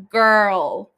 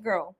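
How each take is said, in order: First: Put-on long, loud "Girl" in reply. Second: Put-on "Girl" short, low and restrained. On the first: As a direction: belt out "Girl", stretched in reaction. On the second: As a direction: drop "Girl" quickly with a falling tune. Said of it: "in different tones. So she's like".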